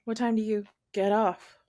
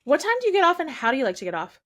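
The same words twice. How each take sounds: First: Flirty question. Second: High, loud eager question; hammed-up high come-on; high loud flirt. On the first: Shown as a demonstration. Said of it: "you heard it go". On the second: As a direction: ask like an overeager admirer. Acting the flirt role.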